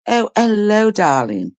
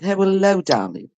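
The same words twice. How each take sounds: First: Hint of a sing-song posh greeting, pitch falling on darling; lightly sung-out hello, darling, like a genteel mother-in-law; mimicking mother-in-law. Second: Mimicking mother-in-law. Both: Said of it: "That's how she would speak".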